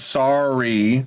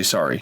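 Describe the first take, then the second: First: Long, stretched sorry with a rising end; drawn-out apology. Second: Said in the usual way. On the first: Retold or imitated. Boyfriend texting his girlfriend an apology, drawn out. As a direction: drag out the apology, lifting at the end.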